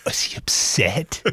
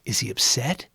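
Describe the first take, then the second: First: Slow, hushed whisper of Is he upset?; whispered worry. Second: Said in the usual way. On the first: Retold or imitated. Holly asking Kit about Cato, whispered. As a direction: lean in and whisper it anxiously.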